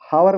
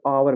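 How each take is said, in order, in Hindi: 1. इसकी शुरुआत में साफ़ 'H' की आवाज़ सुनाई देती है। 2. यह सीधे एक स्वर की आवाज़ से शुरू होता है। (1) "हावर मत पढ़िएगा इसको" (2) "आवर पढ़िएगा"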